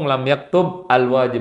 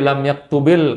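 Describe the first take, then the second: First: The verb ends cleanly before a separate al-wajib. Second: The verb runs into the next word with -il. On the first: "Kalau nggak mau disambung" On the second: "kalau mau disambung"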